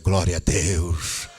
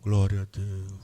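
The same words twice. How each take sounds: First: It is shouted in a joyful, exultant tone. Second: It is said in a sad, mournful tone.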